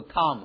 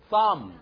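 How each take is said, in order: First: The syllable starts with a plain t sound. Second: The syllable starts with a th sound. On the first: The speaker calls it wrong. "不是t 啊" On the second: The speaker calls it right. "是th 的口音"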